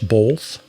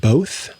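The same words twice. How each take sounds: First: The word is said with an L sound. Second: The word is said without an L sound. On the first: "as if there's an L in it" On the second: "instead of saying both"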